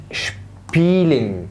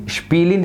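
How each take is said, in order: First: "شبيلين" drawn out slowly in two parts; two separate syllables. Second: Said in the usual way. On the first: Shown as a demonstration. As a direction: split "شبيلين" after a long first syllable, sh before p. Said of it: "خلي بالك في مقطعين". (شبيلين ببطء على مقطعين) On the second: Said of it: "يلا يا صديقي".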